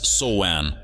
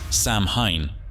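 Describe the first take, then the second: First: The word is said like 'sow-in'. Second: The word is said as it is spelled. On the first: The speaker calls it right. "For those who are not linguists, it's Soan" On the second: The speaker calls it wrong. "confidently pronounces it as Samhain"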